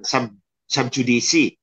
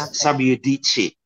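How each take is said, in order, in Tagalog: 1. Ang 'judice' ay nagsisimula sa tunog na J ng Ingles. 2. Ang 'judice' ay nagsisimula sa tunog na Y. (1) "hindi yan sub-judice" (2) "J is Y in Latin, pronounced Y in Latin, and C in between two vowels is chi"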